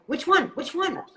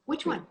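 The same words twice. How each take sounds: First: Higher, louder put-on silly voice. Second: Said in the usual way. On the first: Shown as a demonstration. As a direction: show off the funny voice. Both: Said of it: "Why does Amanda do that voice".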